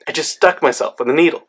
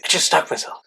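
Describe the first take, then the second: First: Said in the usual way. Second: Under the breath, mildly alarmed; a whispered admission of trouble; hushed, whispered confession. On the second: Retold or imitated. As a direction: whisper it to a friend. Confiding to a friend.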